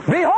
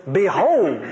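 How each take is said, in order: First: "Behold!" ringing out as a wake-up call; emphatic Behold. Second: Said in the usual way. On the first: Shown as a demonstration. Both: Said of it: "it's more like this".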